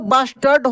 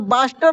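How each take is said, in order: First: The word ends with a clear final d sound. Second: The word ends without a final d sound. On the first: The speaker calls it right. "बास्टर्ड होता है" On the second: The speaker calls it wrong. "बास्टर बोल देते हैं तो बास्टर नहीं होता"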